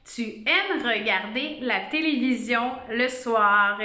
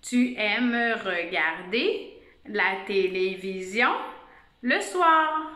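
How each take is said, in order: First: Measured dictation of the whole sentence. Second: Slow, word-by-word rereading of "Tu aimes regarder la télévision le soir"; careful teacher rereading, syllables spaced out; slow dictation. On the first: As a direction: read out "tu aimes regarder la télévision le soir" as one phrase. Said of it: "la phrase ce matin qu'on va écrire". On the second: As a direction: dictate slowly with pauses so each word can be checked. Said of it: "Écoute qu'est-ce que je dis". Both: Shown as a demonstration.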